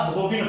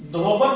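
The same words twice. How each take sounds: First: धोबिन ending in -bin; correct pronunciation. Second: धोबन ending in -ban; mispronunciation demo. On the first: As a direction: say धोबिन with a short 'i' in the last syllable. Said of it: "धोबिन होता है". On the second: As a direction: say धोबन with an 'a' in the last syllable. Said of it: "धोबन नहीं होता". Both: Shown as a demonstration.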